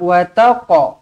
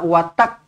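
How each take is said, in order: First: The final q bounces with a slight echo. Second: The final q stops abruptly with no echo. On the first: The speaker calls it right. "lantunkan qala-qala sughra, kita nak wataqa" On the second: The speaker calls it wrong. "kita tak nak watak"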